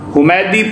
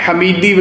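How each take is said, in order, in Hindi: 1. पहला स्वर 'u' की आवाज़ है। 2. पहला स्वर 'a' की आवाज़ है। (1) "बिज़म्मे हा व फ़त्ह मीम, हुमैदी पढ़ना है" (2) "हमीदी वगैरह नहीं पढ़ना"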